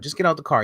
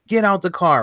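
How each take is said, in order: First: It is said in a calmer tone. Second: It is shouted in an aggressive tone.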